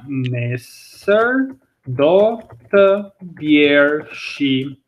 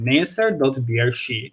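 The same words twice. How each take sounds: First: Very slow, drawn-out word by word; careful teaching pace with long syllables; slow model sentence. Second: Said in the usual way. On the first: Shown as a demonstration. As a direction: spell it out slowly for learners. Teacher models the example sentence slowly.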